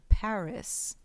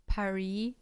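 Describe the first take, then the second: First: The final S is pronounced. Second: An American R is used and there is no final S. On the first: The speaker calls it wrong. "They say the S" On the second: The speaker calls it right. "even with the American R instead of the French R"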